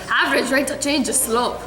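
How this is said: It is said in a put-on Scottish accent.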